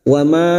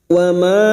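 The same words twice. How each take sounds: Both takes have the same delivery.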